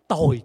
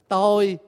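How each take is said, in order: First: The word is said with a falling tone. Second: The word is said with a level tone. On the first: It means wretched. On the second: It means the self.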